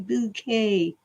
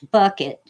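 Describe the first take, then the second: First: The name sounds like the word bouquet. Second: The name sounds like the word bucket. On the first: "She'd always say it's Bouquet" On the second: "Missus Bucket"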